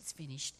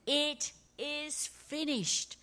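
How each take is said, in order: First: The phrase is whispered weakly. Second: The phrase is shouted loudly. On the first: The speaker is defeated and worn out. The speaker calls it wrong. "it wasn't a whisper of defeat" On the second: The speaker is triumphant and victorious. The speaker calls it right. "it was a cry of victory"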